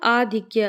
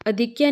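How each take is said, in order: First: The first vowel is long 'aa'. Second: The first vowel is short 'a'. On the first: The speaker calls it right. "क्या होता है? आधिक्य।" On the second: The speaker calls it wrong. "अधिक्य नहीं होता"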